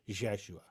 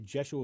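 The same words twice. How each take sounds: First: The name starts with a blended Y-J sound. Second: The name starts with a plain J sound. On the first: "it sounded like a Y and a J com- mix" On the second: "I say Jeshua with a J"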